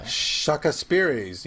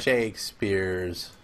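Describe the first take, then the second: First: Shakespeare's said as "Shaka Speary's" with extra vowels; "Shaka Speary's", slow, an extra syllable after Shake; mispronounced Shakespeare's. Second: Shakespeare's said slowly and properly as "Shakespeare's"; "Shakespeare's", drawn out, two clean syllables; correct Shakespeare's. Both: Real, not acted.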